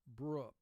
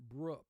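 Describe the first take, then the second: Both takes have the same delivery.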